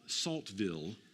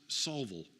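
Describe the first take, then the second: First: The t sound after the l is pronounced. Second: The t sound after the l is dropped. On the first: The speaker calls it wrong. "if you pronounce it the way it's written" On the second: The speaker calls it right. "but it's pronounced Salville"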